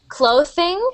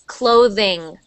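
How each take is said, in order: First: The th is voiceless, a hissing spitting sound. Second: The th is voiced, a vibrating buzzing sound. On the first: The speaker calls it wrong. "the th sound is more of like a spitting sound. So I'm hearing clothing" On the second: The speaker calls it right. "native English speakers make it more of that buzzing sound"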